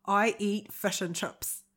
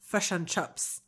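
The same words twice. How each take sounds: First: Slow Kiwi vowels on "fish and chips"; "I eat fish and chips" in a Kiwi accent; New Zealand accent. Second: Slow Kiwi vowels on "Fish and chips"; New Zealand accent. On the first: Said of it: "Give us more". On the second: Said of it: "this is my New Zealand one". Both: Pretend.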